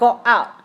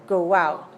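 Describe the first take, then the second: First: The two words are separated by a break. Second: A w glide links the two words. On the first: The speaker calls it wrong. "Not go out" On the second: The speaker calls it right. "but go out ... it gets into a what"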